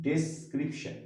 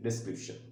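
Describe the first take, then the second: First: ডেসক্রিপশন broken into ডেস, ক্রিপ, শন; syllable by syllable. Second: Said in the usual way. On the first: Shown as a demonstration. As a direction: say ডেসক্রিপশন slowly, each syllable set apart. (ডেসক্রিপশন syllable ভেঙে ধীরে উচ্চারণ) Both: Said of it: "three syllabic word".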